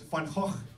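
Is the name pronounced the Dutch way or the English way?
Dutch. The name is said with throaty Dutch sounds. "in Dutch is Van Gogh"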